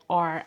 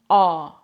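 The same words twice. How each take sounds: First: It is said with a clear final R sound. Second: It is said without a final R sound. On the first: This is how it is said in American English. "They don't pronounce it like R as I used to do it" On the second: This is how it is said in the UK. "here pronouncing the R is different. They don't do it"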